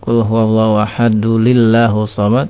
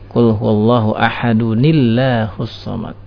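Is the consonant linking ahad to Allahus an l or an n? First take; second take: l; n. First: Ahad is linked to Allahus with an l sound. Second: Ahad is linked to Allahus with an n sound. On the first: The speaker calls it wrong. "apabila dia membaca dengan lam ... ini keliru" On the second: The speaker calls it right. "Cara mewasalkannya dengan nun wiqayah tadi"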